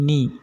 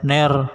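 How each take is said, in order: First: The vowel sounds like a clear i. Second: The vowel sounds like e. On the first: The speaker calls it right. "tapi ni" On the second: The speaker calls it wrong. "jadi tidak ner"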